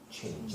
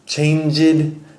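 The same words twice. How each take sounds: First: The ending is a plain 'd' sound. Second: The ending is an extra 'id' syllable. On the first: The speaker calls it right. "Just make sure it's changed. Not id" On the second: The speaker calls it wrong. "you said changed"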